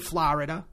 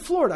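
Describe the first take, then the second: First: It is said with a thick Jersey accent. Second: It is said without a Jersey accent. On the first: "I don't say Florida" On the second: "I say Florida"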